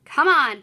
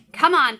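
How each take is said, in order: First: Louder, impatient and bossy. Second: Take charge voice. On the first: Shown as a demonstration. Teacher reading Paul's line to the class, impatient and bossy. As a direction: hurry the kid along impatiently. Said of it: "making my voice sound a little impatient and bossy". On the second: Acted. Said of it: "in his take charge voice".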